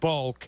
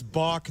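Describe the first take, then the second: First: The vowel is a short 'uh' sound. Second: The vowel is an open 'aw' sound. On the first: The speaker calls it wrong. "not Bulk" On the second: The speaker calls it right. "We tell Cap it's Balk"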